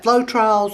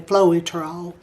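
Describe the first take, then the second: First: It is said without a separate E sound. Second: It is said with a separate E sound. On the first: "some people pronounce that Floetrol" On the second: "and say that E"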